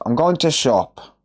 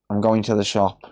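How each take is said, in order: First: The word 'the' is dropped or reduced. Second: The word 'the' is said in full. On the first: "If you go up north, it's" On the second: "we say things like two really weird"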